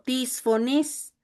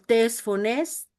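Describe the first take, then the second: First: The eta vowels sound like 'ee'. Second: The eta vowels sound like 'eh'. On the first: "la eta nos da también la forma de pronunciación como i" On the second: "así como está escrito"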